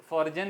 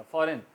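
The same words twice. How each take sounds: First: फॉरजन with the G sounded, like "forjun"; wrong pronunciation. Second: फॉरेन with the G silent, like "forren"; correct pronunciation. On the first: Teacher warns students off this mispronunciation, G sounded. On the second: Teacher gives students the right form, G silent. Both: Shown as a demonstration. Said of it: "फॉरजन नहीं कहा जाएगा".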